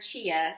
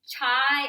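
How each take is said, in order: First: It is said as two syllables, chee-ah. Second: It is said as one syllable, like chai. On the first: Another person says this is how it is pronounced. "Steve says it's pronounced chia" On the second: It is read the way the spelling suggests. "It looks like chai when you order chai tea"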